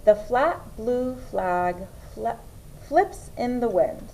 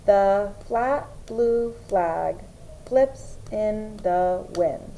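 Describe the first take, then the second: First: Said in the usual way. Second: "The flat blue flag flips in the wind" very slowly, one word at a time; pounding out words. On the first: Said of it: "you are going to read a sentence". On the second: Shown as a demonstration. Teacher demonstrating sentence dictation, pounding out words. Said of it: "pound out the words".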